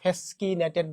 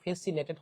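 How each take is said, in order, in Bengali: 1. মাঝের ব্যঞ্জনটি 'sk' ধ্বনি হিসেবে উচ্চারিত হয়। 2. মাঝের ব্যঞ্জনটি সাধারণ 's' ধ্বনি হিসেবে উচ্চারিত হয়। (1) "অবশ্যই এটাকে ফ্যাসকিনেটেড বলবা না" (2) "এই ফ্যাসিনেটেড শব্দটা উচ্চারণ ফ্যাসিনেটেড হবে"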